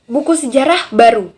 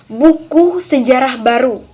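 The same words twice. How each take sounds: First: The pause comes after the word sejarah. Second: The pause comes after the word buku. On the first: It is a new book about history. "kalimat kedua tadi bermakna bahwa buku baru mengenai sejarah" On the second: It is a book about new history. "Pada kalimat pertama itu bermakna bahwa e, ada buku mengenai sejarah baru"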